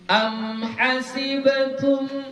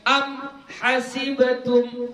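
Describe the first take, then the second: First: The m flows straight into the next word. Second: The reading breaks off after the m. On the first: The speaker calls it right. "Jadi bacanya tetap bersambung" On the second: The speaker calls it wrong. "kamu putuskan bacaannya ... jangan kayak gitu pula bacanya"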